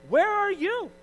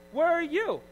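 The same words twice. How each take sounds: First: Much higher, mock-calling out to absent helpers; mock high exasperated call. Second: Higher mocking call, a bit less high, falling at the end; mock high call repeated. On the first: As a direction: squeal it high like a mocking cry. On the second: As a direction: repeat the mock cry, slightly calmer. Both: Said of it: "and I'm like".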